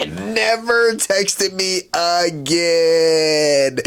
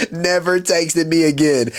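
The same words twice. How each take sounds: First: Very slow, stretched out, Never texted me again; drawn out. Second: Said in the usual way. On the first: Real, not acted. Lamenting to viewers she ghosted him, slow and stretched. Dramatic repeat of the ending.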